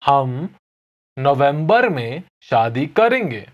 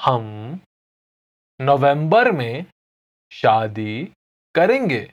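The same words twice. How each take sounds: First: Fast, natural हम नवंबर में शादी करेंगे; natural pace. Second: हम, नवंबर में, शादी, करेंगे with pauses; slow Hindi drill; slow, word by word. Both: Shown as a demonstration. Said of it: "I'll say it again slowly".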